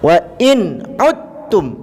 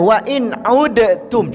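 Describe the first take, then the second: First: The d merges fully into the following t. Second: The d is sounded separately before the t. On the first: The speaker calls it right. "Kita masukkan secara sempurna" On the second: The speaker calls it wrong. "Maksudnya tak payah wa in udtum"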